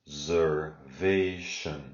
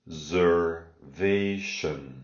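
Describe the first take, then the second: The two takes are said the same way.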